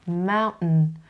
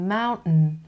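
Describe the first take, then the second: First: The t is a catch in the throat. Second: The same.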